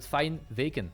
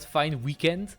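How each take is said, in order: First: It is said with a Dutch accent. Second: It is said with an English accent. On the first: The speaker calls it right. "with a Dutch accent" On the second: The speaker calls it wrong. "Not fine weekend"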